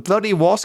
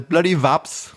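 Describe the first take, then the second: First: The word begins with a W sound. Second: The word begins with a V sound.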